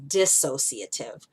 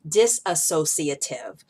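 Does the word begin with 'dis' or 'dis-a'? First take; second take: dis; dis-a. First: It has no extra syllable after 'dis'. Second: It has an extra 'a' syllable after 'dis'. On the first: The speaker calls it right. "the word is dissociative" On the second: The speaker calls it wrong. "I was putting an extra A and extra A S in there"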